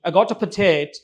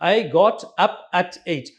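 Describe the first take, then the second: First: The words run together without clear boundaries. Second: Each word is said separately and clearly. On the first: "contractions and word boundaries" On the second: "Supposing when you write down, you would write this way"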